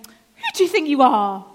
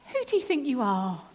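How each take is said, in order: First: It is asked in a rude, challenging tone. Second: It is asked in a neutral, curious tone.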